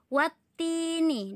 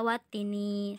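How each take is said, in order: First: The sound is held long and doubled. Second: The sound is said short, without holding. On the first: The speaker calls it right. "harus watini, ditahan" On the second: The speaker calls it wrong. "tidak watini"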